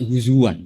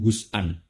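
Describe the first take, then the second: First: A w sound joins the middle of the word. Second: A glottal stop breaks the middle of the word. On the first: This is the Quraisy dialect form. "pakai wawu" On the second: This is the standard Arabic form. "Yang ada itu haza'a ya haza'u hus'an"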